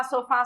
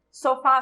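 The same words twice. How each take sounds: First: Long, held "fá" at the end of sofá; slow sofá with the "fá" drawn right out; stress on final syllable. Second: Said in the usual way. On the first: Shown as a demonstration. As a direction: call out sofá, stretching its last syllable. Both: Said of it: "O fá é a sílaba tônica".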